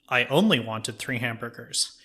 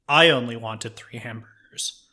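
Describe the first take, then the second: First: The stress falls on the word 'only'. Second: The stress falls on the word 'I'. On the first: "you stress a different word in the sentence" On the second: "you stress a different word in the sentence"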